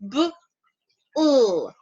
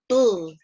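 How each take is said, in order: First: The two sounds are said separately, apart. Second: The two sounds run together quickly as one. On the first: "the B L has the two sounds" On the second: "when I blend them together, they sound bull"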